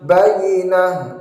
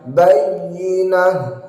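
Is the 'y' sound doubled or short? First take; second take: short; doubled. First: The y sound is short, not held. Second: The y sound is doubled and pressed. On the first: The speaker calls it wrong. "jangan sampai bayyinah" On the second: The speaker calls it right. "padahal ada tasydidnya"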